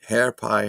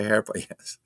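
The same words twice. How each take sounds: First: Said in the usual way. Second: Amused chuckle through words; laughing. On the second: Real, not acted. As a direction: laugh as you say it. Laughing at chat comment.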